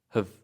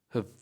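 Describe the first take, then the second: First: The vowel is reduced to a schwa. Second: The same.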